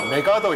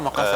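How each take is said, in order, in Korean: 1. 이 이름은 한국식으로 발음되며, 'megadeo'처럼 들립니다. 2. 이 이름은 일본식으로 발음되며, 'makasa'처럼 들립니다. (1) "메가더 메가더 이랬거든요" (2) "일본 애들 마카사 마카사"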